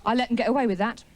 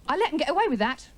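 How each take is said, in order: First: Said in the usual way. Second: Higher, quicker, indignant repeat; angry brooding. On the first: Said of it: "your mind just goes round in circles". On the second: Acted. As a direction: stew over it, pitch jumping up faster. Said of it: "you know when you're angry".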